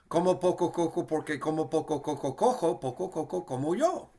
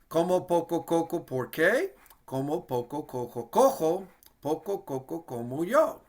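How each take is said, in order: First: It is said at a very fast pace. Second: It is said at a moderately quick pace.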